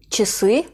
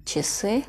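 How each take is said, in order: First: Часы, stress on ы; model word. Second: Часы repeated softer, ы stressed. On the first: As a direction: read часы with ча reduced to чи. (часы, vurgu son hecede) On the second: (часы, yumuşakça tekrar) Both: Shown as a demonstration. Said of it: "Burada ı vurgulu".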